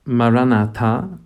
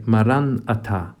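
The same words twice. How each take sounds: First: Maranatha stressed as Marana-tha, the plea come Lord. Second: Maranatha stressed as Maran-atha, a statement the Lord has come. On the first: Priest showing Maranatha meaning come Lord, stress on tha. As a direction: say Maranatha slowly, leaning on the final tha as a plea. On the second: Priest showing Maranatha meaning the Lord has come, stress on atha. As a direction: say Maranatha leaning on atha, as a calm statement of faith. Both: Shown as a demonstration. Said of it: "depending on where you put the emphasis".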